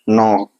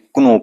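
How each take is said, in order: First: The word starts with an n sound, k silent. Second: The word starts with a pronounced k sound. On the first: The speaker calls it right. "Silent होगा। वहां उच्चारण ध्वनि एन से start करेंगे।" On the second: The speaker calls it wrong. "क्या क्नो होगा? नहीं।"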